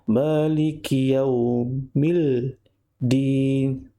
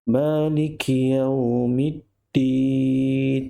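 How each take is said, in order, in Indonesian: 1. Bunyi l terdengar sebelum d. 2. Bunyi m menyatu menjadi bunyi d yang digandakan. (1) "Tak boleh baca Maliki yaumil din. Silap ataupun salah" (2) "mim di sini perlu dimasukkan kepada huruf dal yang bersabdu"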